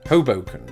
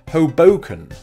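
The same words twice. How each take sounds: First: The stress is on the first syllable. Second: The stress is on the middle syllable. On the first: The speaker calls it right. "the emphasis being on the first syllable" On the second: The speaker calls it wrong. "So I put the emphasis on the middle syllable"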